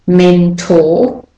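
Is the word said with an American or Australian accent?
Australian. It is said in an Australian accent.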